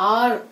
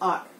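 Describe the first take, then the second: First: The final r sound is hit strongly. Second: The final r sound is said lightly. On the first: The speaker calls it wrong. "It's ఆర్ కాదు" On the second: The speaker calls it right. "రా sound కొంచెం light గా utter అవ్వాలి"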